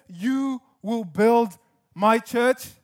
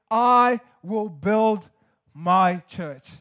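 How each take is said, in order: First: "You" marked as the wrong subject; slow "You will build my church", contrastive; stress on you. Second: "I" weighted and slow; slow, firm "I will build my church" with stress on "I". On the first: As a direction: lean on "You" to show the mistake. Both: Shown as a demonstration. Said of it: "He doesn't say".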